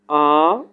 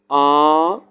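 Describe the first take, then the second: The two takes are said the same way.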